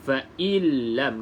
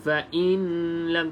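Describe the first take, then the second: First: The n merges fully into the following l. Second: The n is sounded separately before the l. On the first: The speaker calls it right. "Dekat sini kita baca fa'illam" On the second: The speaker calls it wrong. "tak boleh"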